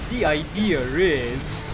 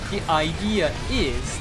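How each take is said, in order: First: An R sound links idea and is. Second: No R sound links idea and is. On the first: "they add a random R letter right there" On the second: "they don't say the idea is"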